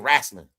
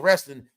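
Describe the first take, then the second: First: The word is said in a Southern accent. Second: The word is said in a plain accent. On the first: "they say wrestling" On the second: "Down south, they don't say wrestling"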